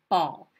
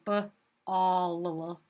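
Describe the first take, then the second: First: The word is said smoothly as one unit. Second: The word is split, sounding out extra parts. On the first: The speaker calls it right. "we just say ball" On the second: The speaker calls it wrong. "we don't say b-all"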